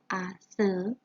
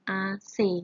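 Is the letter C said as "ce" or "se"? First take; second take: se; ce. First: The letter C is said as "se". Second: The letter C is said as "ce". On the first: This is the non-standard pronunciation. The speaker calls it wrong. "kalau lafal tidak bakunya tuh A S E" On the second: This is the standard pronunciation. The speaker calls it right. "kalau lafal bakunya A C"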